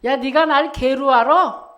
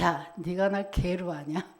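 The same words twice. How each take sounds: First: Louder retold challenge, punched at the end; Goliath's taunt. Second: Low, soft mock challenge; a quietly put, retold taunt; Goliath's taunt. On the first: Preacher replaying Goliath's affront for the congregation, loud mock challenge. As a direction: throw out the giant's indignant question. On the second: Preacher paraphrasing Goliath's words to David, low taunt. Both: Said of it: "이 말이잖아요".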